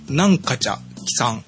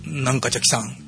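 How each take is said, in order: First: The phrase is said slowly. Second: The phrase is said at normal speed.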